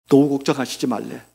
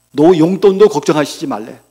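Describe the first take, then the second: First: Said in the usual way. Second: 용돈도 punched louder; stress on 용돈도. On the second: Real, not acted. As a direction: hit the word 용돈도 hard. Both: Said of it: "repeats with 용돈도 added".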